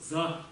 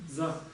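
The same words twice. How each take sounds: Both takes have the same delivery.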